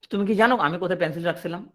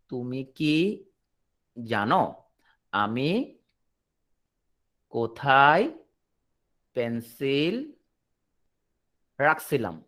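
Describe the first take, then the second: First: Said in the usual way. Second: "তুমি কি জানো আমি কোথায় পেন্সিল রাখছিলাম" broken into small pieces with long pauses; word-by-word. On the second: Shown as a demonstration. Teacher spells out the question for the class, word by word with long pauses. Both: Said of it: "একটা জিনিস খেয়াল করো".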